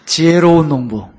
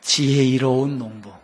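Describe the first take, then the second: First: 지혜로운 농부 said loud and crisp; clear, loud retake. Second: 지혜로운 drawn out and stumbled; slow, tangled take. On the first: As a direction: repeat it loudly and cleanly. (또렷하고 크게) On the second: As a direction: say 지혜로운 농부 slowly as if tongue-tied. (혀가 꼬인 듯 느리게) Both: Shown as a demonstration. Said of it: "저도 아침에 혀가 막 꼬여요".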